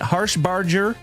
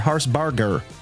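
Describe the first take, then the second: First: The G is soft, like a J. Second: The G is hard, like in 'go'. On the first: "a soft G" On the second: "a hard G"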